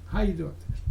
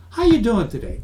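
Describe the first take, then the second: First: Same opener said plainly and softer; softer repeat. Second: Bright chirpy sales opener, a bit higher; bad opener. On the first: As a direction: let it drop as a throwaway. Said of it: "it's a nice question". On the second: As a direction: sell the cheesy small-talk greeting. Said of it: "That's not a good question". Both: Shown as a demonstration.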